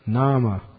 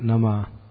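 First: The marked vowel is held long. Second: The marked vowel is kept short. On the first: The speaker calls it right. "Because the line over the A makes it a long" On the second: The speaker calls it wrong. "Not Nama"

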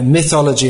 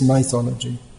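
First: The word has a standard English pronunciation. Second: The word has an Indian English pronunciation. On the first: "It's pronounced in standard English" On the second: "In India, it's mythology"

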